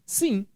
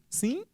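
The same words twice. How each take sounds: First: It is said firmly and with certainty. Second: It is said like a question asking to repeat. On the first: Yes, the homework is done. "ele fez a tarefa" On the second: The question was not heard and should be repeated. "Ele está pedindo que a pessoa repita. Sim é como se fosse um, pois não?"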